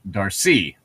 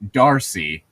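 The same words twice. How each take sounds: First: The stress is on the second syllable. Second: The stress is on the first syllable. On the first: This is the French pronunciation. "emphasis is put on the second syllable" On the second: This is the English pronunciation. "English, it's Darcy"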